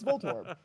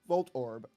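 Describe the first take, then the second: First: The two parts run together without a break. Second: A glottal stop separates the two parts. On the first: "if you say it fast, it sounds like Voltorb" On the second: "I'm just separating it a little bit more"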